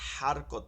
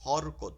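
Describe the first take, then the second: First: The word is said with Arabic-style vowels. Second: The word is said with Bengali-style vowels. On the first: This is the original Arabic way of saying it. The speaker calls it right. "শব্দটা কিন্তু হারকত হবে" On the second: This is the habitual local way of saying it. The speaker calls it wrong. "আমরা যেমন কি বলছি হরকত"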